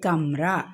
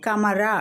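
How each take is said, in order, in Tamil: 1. m நேரா r க்குள் போகும், உயிர் ஒலி இல்லை. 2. m, r இடையே ஒரு முழு உயிர் ஒலி ஒலிக்கும். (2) "கமரா அப்படின்னு படிக்கக்கூடாது"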